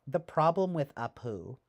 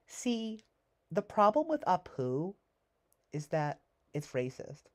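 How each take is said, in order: First: Said in the usual way. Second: High, whiny preachy scold; mocking high voice. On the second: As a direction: mimic a self-righteous critic in a high voice. Mocking the film's message.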